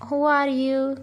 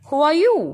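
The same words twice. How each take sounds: First: It is read flatly, like a plain statement. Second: It is read with an asking, questioning tone. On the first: The speaker calls it wrong. "So we can't read it" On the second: The speaker calls it right. "You have to read in the way of asking"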